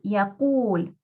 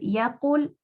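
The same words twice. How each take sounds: First: The second vowel is stretched long. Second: The second vowel is short. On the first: The speaker calls it right. "Estiramos la, wa- eh, la dhamma" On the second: The speaker calls it wrong. "En vez de decir yaqul"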